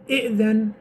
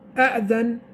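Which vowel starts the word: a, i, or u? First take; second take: i; a. First: The word begins with the vowel i. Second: The word begins with the vowel a. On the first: "We say kasra"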